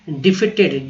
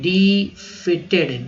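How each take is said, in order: First: Said in the usual way. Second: डिफीटेड stretched very slowly, डि-फी-टेड; slow model pronunciation. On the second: Shown as a demonstration. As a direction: say डिफीटेड slowly for students to copy. (धीरे-धीरे: डिफीटेड) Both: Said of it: "अब देखिए".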